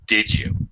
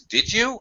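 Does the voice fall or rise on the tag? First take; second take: fall; rise. First: The pitch falls on the tag. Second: The pitch rises on the tag. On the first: "If I use falling intonation or a lower pitch" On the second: "If I rise"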